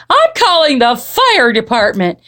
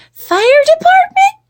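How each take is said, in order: First: Lively groaning mother's declaration; exasperated mama. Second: Very high, loud, rising question; puzzled little girl. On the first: Mama threatening to call for help, exasperated. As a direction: announce it as a fed-up mama. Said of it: "groaned Mama". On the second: Jilly Boo repeating mama's words, high puzzled squeak. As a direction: squeak it back as a questioning child. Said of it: "repeated Jilly Boo". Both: A narrator's reading.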